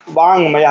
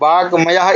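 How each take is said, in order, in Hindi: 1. 'mayah' से पहले एक नासिक ng ध्वनि आती है। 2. 'mayah' से पहले एक सादा k ध्वनि आती है। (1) "सही शब्द क्या होगा? वांग वांग्मयः" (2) "ये वाक्मयः इस तरह से कहेंगे तो ये क्या है? अशुद्ध शब्द है।"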